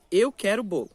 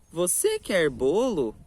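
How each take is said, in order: First: "Eu quero bolo" as a plain statement, falling at the end; statement intonation. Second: "Você quer bolo?" slowly, pitch swinging up as a question; slow, demonstrative question tune on "Você quer bolo?"; rising question intonation. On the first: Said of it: "vou fazer uma afirmação". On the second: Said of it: "colocar minha entonação pra subir". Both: Shown as a demonstration.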